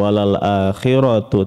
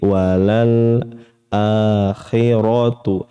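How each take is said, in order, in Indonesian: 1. Bunyi l dipotong pendek secara tiba-tiba. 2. Bunyi l ditahan dan sedikit mengalir. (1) "tidak langsung walal akhiratu" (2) "tapi alirkan sedikit"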